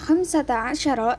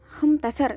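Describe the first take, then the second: First: The number is said in full. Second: The number is said with sounds dropped. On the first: This is the standard form. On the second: This is the colloquial form.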